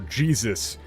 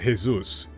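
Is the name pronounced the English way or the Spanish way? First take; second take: English; Spanish. First: The name is pronounced the English way. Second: The name is pronounced the Spanish way.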